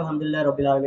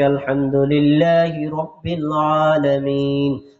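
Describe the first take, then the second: First: It is recited quickly and hurriedly. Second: It is recited slowly and melodiously.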